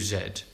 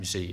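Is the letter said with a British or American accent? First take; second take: British; American. First: The letter is said the British way, zed. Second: The letter is said the American way, zee.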